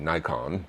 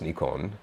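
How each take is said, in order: First: It is said with an American pronunciation. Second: It is said with a Japanese pronunciation. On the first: The speaker calls it wrong. "Americans would say Nikon" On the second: The speaker calls it right. "but it's Nikon"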